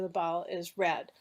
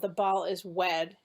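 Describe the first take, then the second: First: The last word begins with an R sound. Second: The last word begins with a W sound. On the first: The speaker calls it right. "instead of" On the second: The speaker calls it wrong. "replacing one sound for another"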